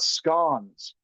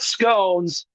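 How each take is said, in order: First: The word is said the British way. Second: The word is said the American way. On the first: The speaker calls it right. "he even talked about scones" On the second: The speaker calls it wrong. "not scones. You mispronouncing ignorant Americans"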